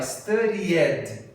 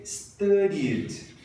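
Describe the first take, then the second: First: STUDIED as three syllables, stu-dee-ED; wrong "studied" with an added "ed"; mispronounced extra syllable. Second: STUDIED as two syllables, "STUH-deed"; slow "studied" closing straight on a d; "studied" with no separate ed syllable; correct pronunciation. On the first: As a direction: sound out the -ed in "studied" separately. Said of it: "adicionei uma sílaba". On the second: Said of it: "Tem que ser". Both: Shown as a demonstration.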